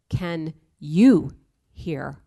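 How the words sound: The stress falls on the word you.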